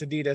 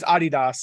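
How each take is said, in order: First: It is said with the American pronunciation. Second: It is said with the original pronunciation. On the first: This is how people over here say it. "but it over here, it's Adidas" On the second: This is how the brand's home country says it. "it's Adidas is the original"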